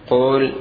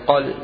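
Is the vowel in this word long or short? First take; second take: long; short. First: The word has a long oo vowel. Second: The word has a short u vowel. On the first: The speaker calls it wrong. "هذا خطأ في اللغة" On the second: The speaker calls it right. "بحذف الواو لالتقاء الساكنين"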